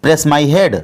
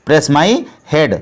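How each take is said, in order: First: Said in the usual way. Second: Very slow repeat, word by word; slow it right down for learners; slowed-down teacher model. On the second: Shown as a demonstration. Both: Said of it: "तो इसको English में बोलेंगे".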